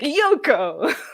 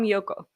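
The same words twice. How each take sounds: First: It is said with strong English-style stress. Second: It is said with flat, even Japanese pitch. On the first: "Americans are like" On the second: "I'm like, I'm Yoko"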